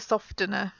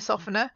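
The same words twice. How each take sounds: First: The t in the word is pronounced. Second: The t in the word is silent.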